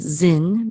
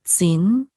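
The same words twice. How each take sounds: First: Zin with a plain English "z" at the start; Zin, no "t" before the z; transliterated pronunciation. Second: Tzin opening on a crisp "ts"; Tzin, a Hebrew "ts" rather than "z"; Hebrew Tzadi sound. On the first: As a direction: say Zin as it is spelt in English, buzzing z. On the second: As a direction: say Tzin with "ts" as in cats at the start. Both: Shown as a demonstration. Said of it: "but it's really Tzadi".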